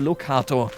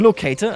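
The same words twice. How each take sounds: First: The word has German pronunciation. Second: The word has English pronunciation. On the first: "in Deutsch" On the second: "I'm just going to use the English uh, pronunciation here"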